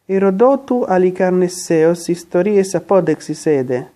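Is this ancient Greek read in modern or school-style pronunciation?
school-style. It is read in a school-style classroom pronunciation. "the way it's pronounced in my high school"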